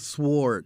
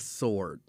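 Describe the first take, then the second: First: A W sound is heard after the S. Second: No W sound is heard after the S. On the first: The speaker calls it wrong. "they pronounce the W" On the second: The speaker calls it right. "It's a sword"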